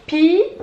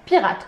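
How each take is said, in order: First: "Pirate" as high drawn-out pi, long pause, rate; syllable by syllable. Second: Said in the usual way. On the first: Shown as a demonstration. Teacher showing two syllables, "Pirate" split as pi, rate. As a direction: stretch and separate both beats of "Pirate". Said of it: "Deux syllabes". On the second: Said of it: "Combien de syllabes dans pirate".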